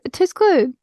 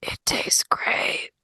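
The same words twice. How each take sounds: First: High, louder blurt; flustered blurt. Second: Slow, drawn-out whisper. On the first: Wythe gives up on secrecy with Isadora, flustered blurt. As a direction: drop the whisper and blurt it out. Whisper dropped, blurted out again. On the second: Wythe whispers to Isadora beside her at the meal, whisper. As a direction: whisper it like a secret to a seatmate. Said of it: "sit next to Isadora and whisper". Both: Acted.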